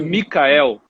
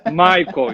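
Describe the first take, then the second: First: The name is pronounced the German way. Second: The name is pronounced the English way. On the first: "Se fosse alemão, seria Michael" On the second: "é mais inglês do que alemão"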